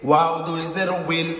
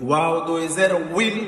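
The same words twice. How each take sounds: Both takes have the same delivery.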